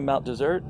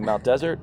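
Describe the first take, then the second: First: Desert sounds like the sweet after-dinner dish. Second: Desert sounds like the word for dry land. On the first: This is how locals say the name. "locals say" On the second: This is how outsiders say the name. "some people say"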